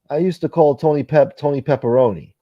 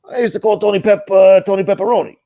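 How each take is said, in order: First: It is read in the speaker's ordinary voice. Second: It is said in a put-on character voice. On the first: The speaker calls it wrong. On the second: The speaker calls it right.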